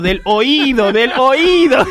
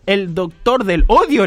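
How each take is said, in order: First: "oído" stressed hard on the í, louder on the repeat. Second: "odio" stressed on its first syllable. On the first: Doctor correcting his patient, "oído" stressed firmly on the í. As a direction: punch the middle syllable of "oído", building. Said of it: "la sílaba tónica". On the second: Patient asking the doctor about his specialty, stress on the first o of "odio". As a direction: say "odio" with the weight on the opening o. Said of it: "El acento está mal puesto". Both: Acted.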